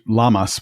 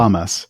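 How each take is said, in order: First: It begins with a plain, voiced L sound. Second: It begins with a breathy, voiceless L sound. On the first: "would probably be perfectly, acceptable" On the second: "I would generally say it like an H L"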